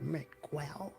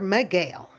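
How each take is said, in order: First: The u is sounded after the g. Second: The u after the g is silent. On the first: The speaker calls it right. "I pronounce the U" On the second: The speaker calls it wrong. "Take the U out and I'll say Sir Miguel"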